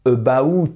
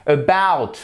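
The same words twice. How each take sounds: First: "about" split as "a-ba-oot", rising at the end; wrong pronunciation. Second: "About" with second syllable stressed, long and falling; correct stress. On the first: Teacher showing learners the mistake, "about" as rising "a-ba-oot". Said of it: "c'est pas". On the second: Teacher modelling "About" with a stressed, falling BOUT. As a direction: lean on BOUT in "About", letting it fall. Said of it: "vous avez un accent tonique ici". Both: Shown as a demonstration.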